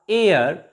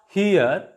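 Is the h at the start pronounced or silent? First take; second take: silent; pronounced. First: The word starts with a vowel, no h. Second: The word starts with an audible h sound. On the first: The speaker calls it right. "H is also silent here" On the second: The speaker calls it wrong. "not here"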